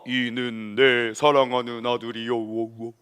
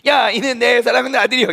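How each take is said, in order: First: It is said in a grand, echoing voice. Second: It is said in a casual, offhand voice.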